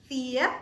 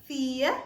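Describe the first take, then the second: The two takes are said the same way.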